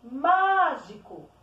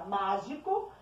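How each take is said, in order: First: MÁGICO called slowly and loudly, MÁ held long; calling out. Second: Said in the usual way. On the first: Shown as a demonstration. Teacher calls it like some little friend, calling out MÁGICO. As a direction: call out MÁÁÁgico, leaning on the first syllable. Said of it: "como se fosse algum amiguinho".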